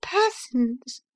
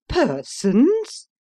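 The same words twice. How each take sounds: First: High, level, smug confirmation; cool repetition. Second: High, loud shocked question; outraged exclamation. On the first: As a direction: answer back calmly, just the word. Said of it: "replied Missus Briggs". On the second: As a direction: spit the word back in disbelief. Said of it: "ejaculated Missus Taunton". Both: Acted.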